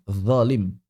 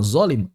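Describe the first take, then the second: First: "zolim" with thick voiced th; tongue-tip th, as in "this", opening "zolim"; correct Arabic zo. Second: "zolim" with a buzzing thick z; wrong zai-like zo. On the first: Teacher corrects students' Arabic, correct zo with th. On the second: Teacher shows students the mistake, wrong zai-like zo. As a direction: say "zolim" with z for the Arabic th-sound. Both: Shown as a demonstration. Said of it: "bukan zolim".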